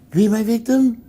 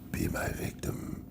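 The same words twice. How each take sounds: First: It is said toned down and light. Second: It is said with heavy, weighty gravitas.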